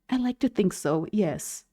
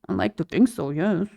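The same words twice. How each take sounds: First: It is said in a flirty, confident way. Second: It is said quietly, in a mumble.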